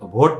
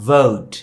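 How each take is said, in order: First: The v is a stop made with both lips. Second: The v is a fricative with teeth on lip. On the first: The speaker calls it wrong. "এটা ভোট না" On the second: The speaker calls it right. "এটা হচ্ছে ভোট"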